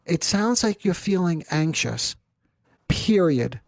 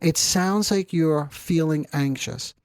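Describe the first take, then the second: First: "It sounds like you're feeling anxious, period." said calmly with a falling, final close on "period."; steady therapist reflection ending on a firm falling "period."; firm full stop. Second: Said in the usual way. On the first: Shown as a demonstration. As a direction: land the reflection, then close hard on "period.". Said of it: "I'm emphasizing that to you because that is the intervention". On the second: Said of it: "I don't say period, by the way".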